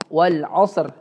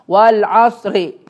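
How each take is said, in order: First: The final r ends bare with no vowel. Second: The final r is followed by a short i. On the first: The speaker calls it right. "kalau diwakafkan wal asr" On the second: The speaker calls it wrong. "tetap dikasih harokat kasrah tuh"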